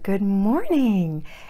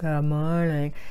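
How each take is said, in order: First: It is said brightly with high energy. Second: It is said flatly with low energy. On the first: The parent feels positive and enthusiastic. The speaker calls it right. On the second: The parent feels tired and unmotivated. The speaker calls it wrong.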